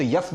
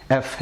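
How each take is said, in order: First: "یف" with an additional y in front; wrong pronunciation. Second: "ایف" as eff, no y glide; correct pronunciation. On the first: Teacher adding Y to show the mistake, wrong pronunciation. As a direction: say "یف" as yeff. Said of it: "غلط ہے". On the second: Teacher correcting the letter F for learners, correct pronunciation. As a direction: begin "ایف" directly on the vowel. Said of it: "صحیح pronunciation ایف ہے". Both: Shown as a demonstration.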